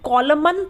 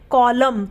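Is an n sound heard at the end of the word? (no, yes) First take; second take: yes; no. First: The word ends with an audible n sound. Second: The word ends with m, no n sound. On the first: The speaker calls it wrong. "हम कॉलमन तो नहीं बोलते" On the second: The speaker calls it right. "हम क्या बोलते हैं? कॉलम"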